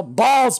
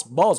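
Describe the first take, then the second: First: High, loud outburst; loud exclamation. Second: Said in the usual way. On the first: Real, not acted. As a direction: blurt Balls! out loud and high. Reacting to getting a ball in game.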